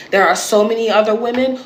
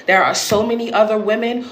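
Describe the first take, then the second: No difference in how they are said.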